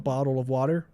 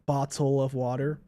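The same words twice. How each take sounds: First: The T sounds are said like soft D sounds. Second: The T sounds are said as clear T sounds. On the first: "They might pronounce it more like a D" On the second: "rather than saying"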